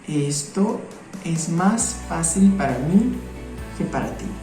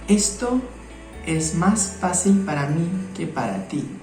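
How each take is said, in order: Both takes have the same delivery.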